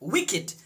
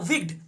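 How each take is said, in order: First: The word is said with two full syllables. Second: The word is squeezed into one syllable. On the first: The speaker calls it right. "आपको उच्चारण करने होंगे विकेट" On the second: The speaker calls it wrong. "बहुत लोग बोलता है विग्ड, तो याद रखिएगा विग्ड उच्चारण करना गलत है"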